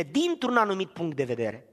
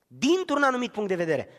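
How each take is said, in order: First: Said in the usual way. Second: "Dintr-un" hit higher, falling firmly at the end; emphatic repeat. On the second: Shown as a demonstration.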